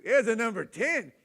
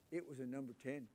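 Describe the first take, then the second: First: "number ten" hit high and loud; emphatic exclaim. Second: Said in the usual way. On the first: Shown as a demonstration. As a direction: exclaim the horror of the diaper. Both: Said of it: "It wasn't a number two".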